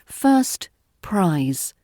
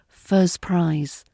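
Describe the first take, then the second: First: The t sound in 'first' is clearly pronounced. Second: The t sound in 'first' is dropped. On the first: "careful pronunciation would be" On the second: "in natural speech, you'll hear it as"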